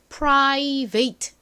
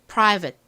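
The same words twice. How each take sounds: First: The ending is a full 'vate' rhyming with wait. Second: The ending is a weak, short 'vit' sound. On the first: The speaker calls it wrong. "자칫 잘못하면 private 이렇게 잘못 읽기 쉬운 단어" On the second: The speaker calls it right. "발음 연습해 볼게요"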